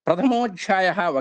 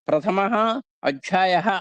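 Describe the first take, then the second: First: It is said as one joined word. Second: It is said as two separate words. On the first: The speaker calls it right. "ఒకే పదంగా చదవాలి" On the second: The speaker calls it wrong. "విడదీస్తే"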